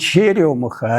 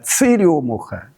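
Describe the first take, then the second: First: It is said in standard Russian, with 'ch'. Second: It is said in northern dialect, with 'ts'.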